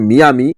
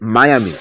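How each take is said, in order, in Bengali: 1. প্রথম অংশটি 'mee' হিসেবে উচ্চারিত হয়। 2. প্রথম অংশটি 'my' হিসেবে উচ্চারিত হয়। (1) "আমি প্রথম দর্শনে উচ্চারণ করেছি মিয়ামি" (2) "সঠিক উচ্চারণ হবে মায়ামি"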